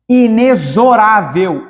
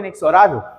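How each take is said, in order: First: The x is pronounced as a z sound. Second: The x is pronounced as a ks sound. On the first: The speaker calls it right. "Esse X tem som de Z" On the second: The speaker calls it wrong. "Alguém falou inexorável? Tá errado"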